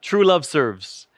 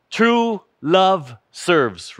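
First: Lower, quieter echo of True Love Serves; softer repeated title. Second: Slow, each word weighted; emphatic slow title. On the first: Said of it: "Remember that". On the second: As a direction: say the title slowly, stressing True. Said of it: "What's the title of our message again?". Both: Shown as a demonstration.

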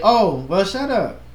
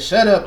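First: Light, casual "shut up", no bite; nice and calm. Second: Firmer, more pointed "shut up"; mock harsh retelling. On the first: Shown as a demonstration. Showing how the speaker might say it harmlessly, nice and calm. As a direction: say it calmly, lifting the pitch on "shut up". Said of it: "I could say it's nice and calm". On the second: Offended person reporting what was said, mock harsh. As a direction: retell it as if it were rude, mildly. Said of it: "might have took it as".

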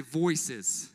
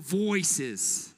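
First: Said in the usual way. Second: A little Boston accent; lightly put-on Boston accent. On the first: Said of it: "Look to your other neighbor and put". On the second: Shown as a demonstration. Preacher has the crowd mimic it, light Boston accent. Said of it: "a little Boston accent on".

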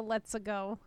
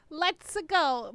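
First: Said in the usual way. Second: Slow, slightly higher catchphrase delivery; lightly voiced, stretched-out game catchphrase. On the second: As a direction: try out the game hero's catchphrase. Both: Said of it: "I didn't think about the".

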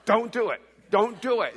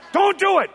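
First: Firm, imitated warning, no shouting; earnest warning. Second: High, loud, hyped-up shout; mock reverse psychology. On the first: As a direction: warn him off firmly, twice. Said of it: "she was more like". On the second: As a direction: shout it like a playful dare. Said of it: "maybe this is, like, reverse psychology".

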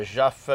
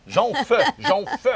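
First: Joff, with no nasal N sound; mispronounced surname. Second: Jonf, repeated higher through a laugh; corrected pronunciation. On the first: Real, not acted. Host misreads singer's surname, mispronounced as Joff. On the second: Shown as a demonstration. Host fixes singer's surname, corrected Jonf said laughingly. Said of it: "qu'on dit".

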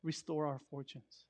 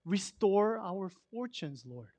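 First: Quiet plea. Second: Slow plea. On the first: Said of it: "all of a sudden he says". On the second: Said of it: "he actually says". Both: Retold or imitated.

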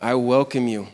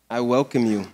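No difference in how they are said.

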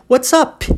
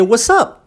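First: "What's up" with the last P popped audibly; final P released. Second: "what's up" with the P left unreleased; swallowed final P. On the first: Teacher showing the P that needn't be said, P released. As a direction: let the P at the end of "What's up" burst. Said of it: "Eu não preciso falar esse P". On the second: Teacher showing how to swallow the P, unreleased ending. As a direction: cut off the end of "what's up" without popping the P. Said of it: "Olha como é que eu engoli". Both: Shown as a demonstration.

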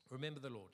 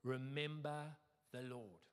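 First: Said in the usual way. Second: Slow, lightly Scottish declaration; slow proclamation, touch of Scottish; Scottish accent. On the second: Acted. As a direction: draw it out solemnly with a hint of Scottish accent. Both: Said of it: "This is the Scottish accent bit".

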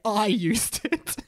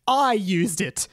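First: Slow, hammed-up proclamation with a higher lift; dramatic. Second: Mild mock yell, drawn out. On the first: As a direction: draw it out for mock drama. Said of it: "rotated his head dramatically to say". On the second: A narrator's reading. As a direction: announce it slowly with a touch of volume. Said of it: "Mister Charger yelled".

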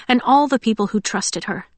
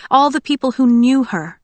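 First: Said in the usual way. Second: All leaned on, the whole phrase higher and louder; stress on All. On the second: A narrator's reading. Narrator building to All the people who knew her. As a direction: swell on All as the thought builds.

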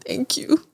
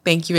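First: High, soft whispered "Thank you.". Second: Said in the usual way. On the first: Retold or imitated. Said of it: "you know how I'm just like". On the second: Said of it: "I was just like".

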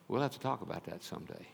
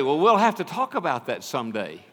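First: Regretful hush. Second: Offhand brush-off. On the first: Repeating his words with regret. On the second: Brushing off a student casually. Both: Retold or imitated.

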